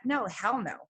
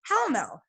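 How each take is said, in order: First: Said in the usual way. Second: Hell punched higher, falling no; emphatic repeat. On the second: Retold or imitated. Repeating her refusal to listeners, with a higher punch on Hell. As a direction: hit Hell hard on the repeat.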